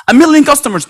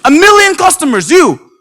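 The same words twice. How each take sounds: First: Said in the usual way. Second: High, loud disbelieving echo; incredulous echo. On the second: Retold or imitated. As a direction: repeat it like you can't believe it.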